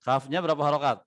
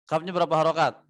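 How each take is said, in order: Both takes have the same delivery.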